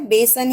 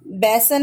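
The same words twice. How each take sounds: First: बेसन said with a closed e, बे-सन; correct vowel. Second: बेसन said with an open ai, like बैसन; wrong vowel. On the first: Teacher showing kids the right vowel in बेसन, closed e. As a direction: keep the e in बेसन short and closed. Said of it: "बेसन ही होता है". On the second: Teacher showing kids the wrong vowel in बेसन, open ai. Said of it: "बेसन नहीं होता है". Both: Shown as a demonstration.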